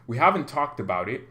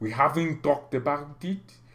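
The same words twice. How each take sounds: First: It is said in the speaker's ordinary accent. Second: It is said in a put-on French accent.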